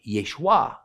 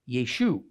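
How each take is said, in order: First: The name ends with an added 'a' sound. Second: The name ends on 'u' with no final vowel. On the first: This is the Judean way of saying the name. "In Judea, it sounded like Yeshua" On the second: This is the Galilean way of saying the name. "in the Galilee, the way his name was spoken sounded like Yeshu"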